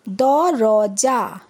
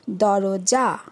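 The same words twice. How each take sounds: First: দরজা drawn out very slowly, each syllable stretched; slow spelled-out reading. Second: Said in the usual way. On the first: Shown as a demonstration. Teacher showing pupils how to read, very slow drawn-out দরজা. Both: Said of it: "যেরমভাবে আমি পড়লাম".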